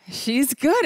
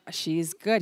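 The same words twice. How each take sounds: First: She's good said through a laugh. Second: Said in the usual way. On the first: Retold or imitated. The athlete answers the Prime Minister's question, laughing.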